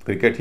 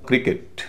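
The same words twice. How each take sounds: First: "क्रिकेट" with a full e in the last syllable; full e ending. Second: "क्रिकेट" with a light short i in the last syllable; short i ending. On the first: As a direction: say "क्रिकेट" ending in a clear "केट". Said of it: "उसका उच्चारण ए होगा". ("क्रिकेट" के अंत में पूरा ए) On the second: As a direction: say "क्रिकेट" ending in a weak "किट". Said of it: "तो उसका उच्चारण होगा छोटी ई". ("क्रिकेट" के अंत में हल्की छोटी ई) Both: Shown as a demonstration.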